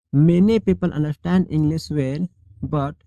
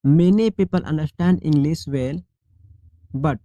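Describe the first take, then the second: No difference in how they are said.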